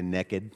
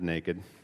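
First: It is said with a Southern Alabama accent. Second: It is said with a standard, non-Southern accent.

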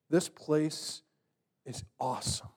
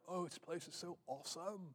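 First: It is said with hushed, speechless awe. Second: It is said in a casual surfer voice.

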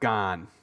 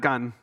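First: The vowel is held long. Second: The vowel is held short. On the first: The speaker calls it right. "it's got to get longer there" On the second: The speaker calls it wrong. "not gan"

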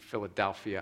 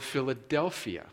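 First: The word is said with one vowel changed. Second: The word is said with its standard vowels. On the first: The speaker calls it wrong. "I mispronounce the word Philadelphia, and I make the E and A" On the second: The speaker calls it right. "I pronounced it correctly"

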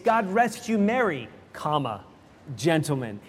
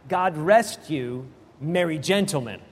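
First: The pause comes after "merry". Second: The pause comes after "you".

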